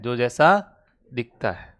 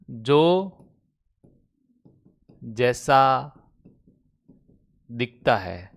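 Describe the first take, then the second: First: Said in the usual way. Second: Word by word with long pauses; slow dictation. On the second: Real, not acted. Teacher dictating a definition to students, slow dictation. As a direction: dictate it slowly, leaving time to write.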